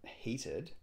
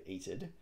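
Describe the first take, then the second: First: Said in the usual way. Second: "eated" said without an opening H; dropped H. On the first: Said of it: "in a Cockney accent, you drop the H". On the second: Shown as a demonstration. Crossword solver explaining a Cockney clue, dropped H on "eated". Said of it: "but in a Cockney accent, you drop the H".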